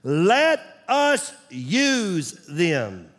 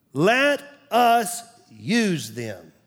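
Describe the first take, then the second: First: Very slow, each word weighed; slow emphatic. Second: Slow, deliberate echo; slow repeat. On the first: Pastor drilling a key phrase to his church, slow and weighty. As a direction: spell it out slowly for the flock. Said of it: "underline these words". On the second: Pastor repeating the phrase for the congregation, slow. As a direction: say it again, slowly, to let it sink in. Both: Shown as a demonstration.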